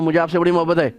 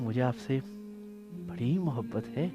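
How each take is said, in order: First: It is said in a cold, unloving tone. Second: It is said in a warm, affectionate tone. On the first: The words of love do not sound sincere. The speaker calls it wrong. "कौन सी मोहब्बत हो रही है भाई?" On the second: The words of love sound sincere. The speaker calls it right. "कितना फर्क आ गया कहने में"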